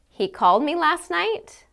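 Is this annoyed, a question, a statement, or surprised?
question. It is said as a question. The speaker is asking whether he called. "I can say it as a question"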